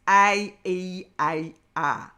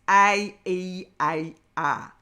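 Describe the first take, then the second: First: The vowels are shaped with big jaw movements. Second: The same.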